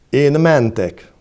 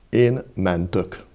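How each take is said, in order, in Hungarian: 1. Az ige utolsó magánhangzója e hang. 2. Az ige utolsó magánhangzója ö hang. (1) "Elmondom nyílt és zárt elvel" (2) "az árt helyett megismétlem ővel is"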